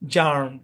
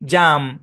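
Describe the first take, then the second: First: American accent, the r sound is pronounced. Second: British accent, the r sound is silent. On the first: "American English হবে কি জার্ম" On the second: "British ইংলিশে জাম ... একটু টান দিয়ে হবে"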